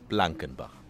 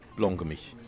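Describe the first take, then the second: First: The name is said in its standard form, ending 'bach'. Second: The name is said in its local form, ending 'mich'.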